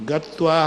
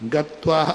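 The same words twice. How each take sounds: The two takes are said the same way.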